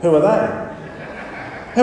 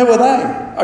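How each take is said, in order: First: Whispered through a real laugh; breathy laugh. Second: Mock baffled teenager, pitched higher and louder; imitating teens. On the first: Real, not acted. Pastor laughing at youth group who missed the Beatles, whispery laughing. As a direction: laugh it out, hardly voiced, very slow. Laughing at the kids' blank reply. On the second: Pastor mimics youth group kids not knowing the Beatles, high mock confusion. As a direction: play the clueless kid who never heard of them. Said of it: "Here it comes".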